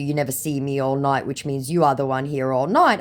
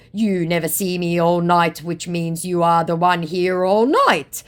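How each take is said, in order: First: Said in the usual way. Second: Raised, louder put-on retort; mock accusation. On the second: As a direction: imitate the scammer turning the blame round. Acts out scammer's accusing reply.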